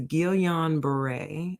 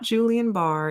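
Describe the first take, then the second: First: The name sounds like 'Ghee-yan Bar-ray'. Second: The name sounds like 'Julian Barr'. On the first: The speaker calls it right. "It is Guillain Barre" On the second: The speaker calls it wrong. "It is not Julian Barr"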